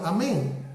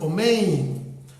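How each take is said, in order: First: The word begins with an 'ah' sound. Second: The word begins with an 'oh' sound. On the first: "el sefardita lo ha pronunciado amén" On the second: "los judíos eh, askenazitas mencionan omein"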